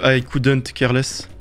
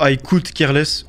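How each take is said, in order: First: "I couldn't care less" said slowly, leaning on "couldn't"; slow English, the correct form with "couldn't"; correct version. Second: "I could care less" said slowly in English, the error form; slow English phrase, "could" without the negation; wrong version. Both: Shown as a demonstration. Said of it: "au lieu de".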